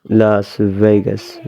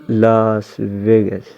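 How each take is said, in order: No difference in how they are said.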